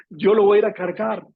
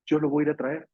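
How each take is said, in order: First: Louder, firmer Yo lo voy a ir a cargar; determined vow. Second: Said in the usual way. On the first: Acted. Mary insisting to the gardener she will carry him: loud determined vow. Mary's vow, repeated stronger.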